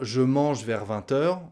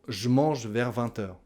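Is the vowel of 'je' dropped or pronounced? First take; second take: pronounced; dropped. First: The vowel of je is fully pronounced. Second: The vowel of je is dropped.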